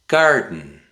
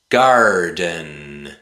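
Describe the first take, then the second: First: The middle is cut off by a glottal stop. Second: The D is pronounced clearly in the middle.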